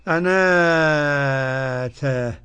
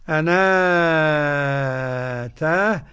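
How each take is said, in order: No difference in how they are said.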